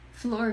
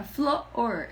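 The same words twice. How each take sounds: First: Said in the usual way. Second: "flor" split slowly into flo, or; one syllable made two. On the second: Shown as a demonstration. Showing how small children say "flor", split in two syllables. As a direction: stretch "flor" into two separate beats, flo-or. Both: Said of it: "transformar monossílabos em dissílabos".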